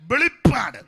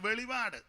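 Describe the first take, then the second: First: The middle p sound is long and doubled. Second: The middle p sound is short and single. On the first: The speaker calls it right. "രണ്ട് പായ" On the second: The speaker calls it wrong. "ചിലര് ഇതിനെ വെളിപാട് പുസ്തകം എന്ന് വായിക്കുന്ന കേട്ടുണ്ട്"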